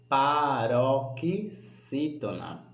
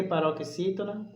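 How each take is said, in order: First: "paroxítona" very slowly, broken into syllable groups; stretched term. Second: Said in the usual way. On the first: Shown as a demonstration. Teacher naming the classification, slow and segmented. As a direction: draw out "paroxítona" piece by piece. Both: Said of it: "Essa sílaba vai se chamar".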